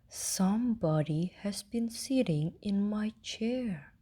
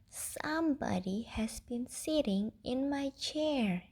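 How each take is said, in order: First: It is said in a loud, growly voice. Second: It is said in a small, squeaky voice. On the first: "roared with a growly voice" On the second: "in a small, squeaky baby voice"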